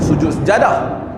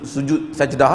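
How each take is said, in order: First: The last word has three syllables, sejadah. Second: The last word has two syllables, sajdah. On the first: The speaker calls it wrong. "setengah orang sebut sujud su, sujud apa? Sujud sujud sejadah" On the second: The speaker calls it right. "Contoh sebut su, sujud sajdah lah"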